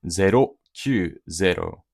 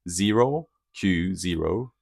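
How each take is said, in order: First: It is spoken with a Japanese-style pronunciation. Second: It is spoken with an English-style pronunciation. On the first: "that's the specific pronunciation side of it" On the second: "if I say a little bit more closer to English"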